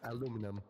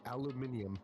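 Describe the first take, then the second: First: It is said with four syllables, American style. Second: It is said with five syllables, British style. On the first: "It's aluminum" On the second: "Or if you're British"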